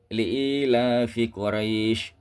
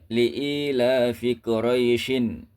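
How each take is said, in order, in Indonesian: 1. Kata terakhir diakhiri tanpa bunyi n. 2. Kata terakhir diakhiri dengan bunyi n tambahan. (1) "maka cara membacanya seperti ini"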